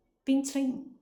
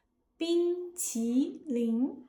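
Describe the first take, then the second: First: 冰淇淋 rushed fast, syllables blended together; blurred quick 冰淇淋; slurred imitation. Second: 冰淇淋 slowly, each syllable apart with its own tone; careful native 冰淇淋; clear separate syllables. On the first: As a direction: mumble 冰淇淋 like Cena. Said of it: "Cena's syllables blend together". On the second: Shown as a demonstration. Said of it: "each syllable is clear and separate".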